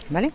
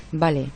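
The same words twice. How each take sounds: First: "¿Vale?" with a rising question tune; teacher asks the class whether "¿Vale?" is clear, ending up; checking question. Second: "Vale" said with a flat falling tune as an empty filler; filler word demo. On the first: Real, not acted. Teacher checks understanding with students, rising question tone. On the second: Shown as a demonstration. Teacher demonstrates a filler word to students, falling and flat. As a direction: drop "Vale" down, like a habitual hesitation filler. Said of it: "Por ejemplo, el decir mucho".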